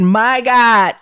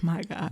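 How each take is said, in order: First: "My God" said out loud, much louder; exclaimed aloud. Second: Hushed, much softer under the breath; whispered. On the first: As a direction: let "My God" burst out in alarm. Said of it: "I said". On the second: Terrified under the eye probe, a much softer hushed "My God". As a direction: mutter it under your breath in fear. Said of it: "I think I whispered that under my breath". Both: Retold or imitated.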